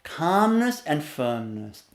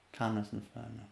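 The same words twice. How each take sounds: First: Said in the usual way. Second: Much softer and lower, steady; teacher showing a calm firm voice. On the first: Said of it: "See that?". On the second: Shown as a demonstration. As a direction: say it calmly, almost hushed. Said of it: "Like that".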